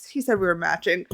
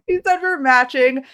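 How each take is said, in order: First: Said in the usual way. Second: Higher, thrilled restatement; giddy repeat. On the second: Real, not acted. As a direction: say it again as a swooning fan.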